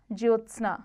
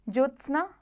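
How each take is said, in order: First: ज्योत्सना with jyo, ending falling; correct form. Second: ज्योत्सना higher, ending lifted; wrong form. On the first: Teacher corrects it, ज्योत्सना falling. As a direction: say ज्योत्सना as jyotsna. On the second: Teacher shows the error, ज्योत्सना rising. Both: Shown as a demonstration. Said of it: "व्यंजन द्वितीय संबंधी".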